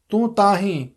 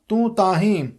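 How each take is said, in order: Both takes have the same delivery.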